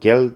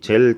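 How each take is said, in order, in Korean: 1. 이 단어는 센 g 소리로 시작합니다. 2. 이 단어는 j 소리로 시작합니다. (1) "겔이라고 발음하시면 되겠습니다" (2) "우리 젤 타입이라고 하죠"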